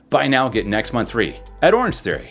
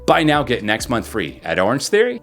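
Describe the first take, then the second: First: The pitch rises a little at the end. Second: The pitch rises sharply like a question. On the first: The speaker sounds happier and brighter. "See how it kind of went up and made it a little bit happier, a little bit brighter" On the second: The line sounds like a question. "If you do it too much, you can make it sound like a question"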